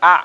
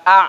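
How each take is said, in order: First: The second "a" said lightly and briefly, not pressed; a short, easy "a" that just touches the sound; light vowel. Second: The "a" in "Nggak a" pushed hard and loud from the throat, the wrong way; pressed vowel. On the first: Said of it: "tapi a cukup". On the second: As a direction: press the "a" hard and louder as the mistake to avoid. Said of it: "Nggak a, tapi a cukup". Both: Shown as a demonstration.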